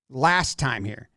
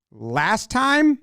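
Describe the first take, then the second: First: "Last time here" said slowly and low; imitated plain statement. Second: "Last time" climbing high at the end; imitated question. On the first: Pitcher explains on the mound, "Last time here" as a low statement. Guessing what Ohtani said on mound. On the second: Mound visit guesswork, "Last time" as a high, rising question. Same words voiced as a question.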